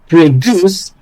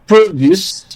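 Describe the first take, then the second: First: The stress is on the second syllable. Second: The stress is on the first syllable. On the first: It is used as a verb. "as a verb" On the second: It is used as a noun. "as a noun"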